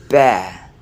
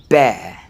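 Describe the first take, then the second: No difference in how they are said.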